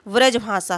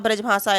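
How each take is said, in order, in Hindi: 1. शब्द की शुरुआत 'v' ध्वनि से होती है। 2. शब्द की शुरुआत 'b' ध्वनि से होती है। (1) "व्रजभाषा है" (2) "ब्रजभाषा ब्रजभाषा ऐसे बोल देते हैं ना"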